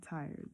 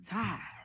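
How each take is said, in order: First: It is said in a standard American accent. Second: It is said in a Southern American accent. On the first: The speaker calls it wrong. "not tired" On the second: The speaker calls it right. "with like a southern type thing, you know, because like you know we always say tired"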